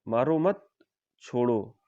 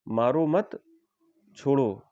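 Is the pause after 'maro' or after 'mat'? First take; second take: after mat; after mat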